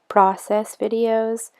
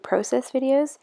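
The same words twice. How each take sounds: First: Process is pronounced the American way. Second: Process is pronounced the Canadian way. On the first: "my American friends who might say process videos" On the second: "I always say process videos, but I know that probably um, gives away my Canadian accent"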